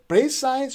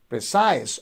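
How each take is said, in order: First: The stress is on the first syllable. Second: The stress is on the second syllable. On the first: The speaker calls it wrong. "you are stressing the first syllable" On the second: The speaker calls it right. "precise on the second syllable"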